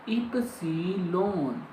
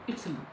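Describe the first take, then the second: First: The word is said slowly and fully. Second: The word is said very quickly and shortly. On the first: The letter is named on its own. "If I cut it in words, we say epsilon" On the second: The letter appears inside a word. "then we use is very short pronounce"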